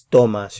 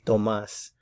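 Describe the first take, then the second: First: The stress is on the first syllable. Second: The stress is on the last syllable. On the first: It means you take. "We're putting the stress over here" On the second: It is the name Thomas. "the name will have an accent mark here"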